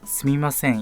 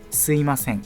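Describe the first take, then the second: First: The second syllable is a clear 'mi'. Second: The second syllable is reduced to 'i'. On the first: "Alex said すみません in dialogue" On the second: "we often say すいません because it's easier to pronounce"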